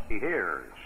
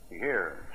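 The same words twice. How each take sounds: First: Said in the usual way. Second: Softer, lower repeat of He hears; quiet echo. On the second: Real, not acted. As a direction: let He hears fall away hushed.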